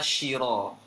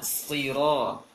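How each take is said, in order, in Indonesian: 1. Kata ini diawali dengan bunyi sh. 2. Kata ini diawali dengan bunyi s tebal. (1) "Yang sering salah kalau baca adalah shiro" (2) "Seharusnya siro"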